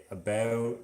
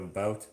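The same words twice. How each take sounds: First: "about" with a raised vowel, close to a-beh-oot; Canadian raising on the OU of "about". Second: Said in the usual way. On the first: Shown as a demonstration. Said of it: "Canadians would say about instead of about". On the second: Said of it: "instead of about".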